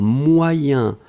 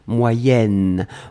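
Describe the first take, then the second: First: The word ends in a nasal vowel. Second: The word ends with a clearly sounded n.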